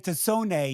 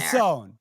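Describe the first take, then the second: First: The name is said with an Italian pronunciation. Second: The name is said with an anglicized pronunciation.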